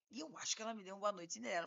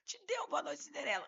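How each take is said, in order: First: Imitating client, quick and softer; client's comic intonation. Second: Higher-pitched mock disbelief; incredulous echo. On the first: Client telling lawyer he was drugged, comically casual imitation. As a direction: mimic a hurried, matter-of-fact confession. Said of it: "ele fala nessa entonação, muito engraçado". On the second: Lawyer echoing client's drugging story, acted incredulity. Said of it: "E eu desse jeito".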